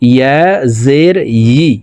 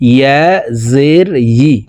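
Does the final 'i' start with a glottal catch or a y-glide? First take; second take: y-glide; y-glide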